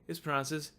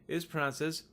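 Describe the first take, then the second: The two takes are said the same way.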